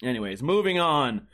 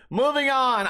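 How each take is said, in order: First: Said in the usual way. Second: Laughing through the words, slower; amused, laughing it off. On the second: Real, not acted. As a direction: chuckle as you say it. Laughs after the rant.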